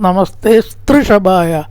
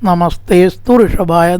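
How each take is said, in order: First: The last two words merge into one. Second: The last two words are kept separate. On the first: "വായിക്കുമ്പോൾ സ്തൃ എന്ന് വായിക്കണം" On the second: "നമസ്തേ സ്തു ഋഷഭായ എന്ന് വായിക്കുക"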